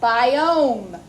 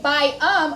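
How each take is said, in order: First: The O is said as a long vowel. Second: The O is said as a short vowel. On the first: The speaker calls it right. "we're saying the long O, biome" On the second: The speaker calls it wrong. "we don't say biome or biom. It's not a short O"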